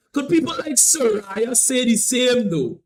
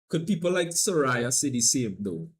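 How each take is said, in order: First: Loud, high, drawn-out question; emphatic call-out. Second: Said in the usual way. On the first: Real, not acted. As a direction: put the question to everyone, slow and loud. Repeats the question loudly for effect.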